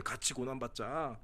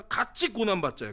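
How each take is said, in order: First: Low, hushed and slow, pressing each word home; soft, slow emphasis. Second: Said in the usual way. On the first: Shown as a demonstration. Pastor urging the congregation to suffer together, hushed and slow. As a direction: drop the voice and let it sink in.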